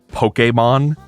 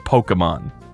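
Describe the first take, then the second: First: The middle E is said as a clear 'ay'. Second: The middle E is said as a plainer vowel. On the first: This is the official pronunciation. "there's an accent on the E" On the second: This is how ordinary people say it. "Everybody says"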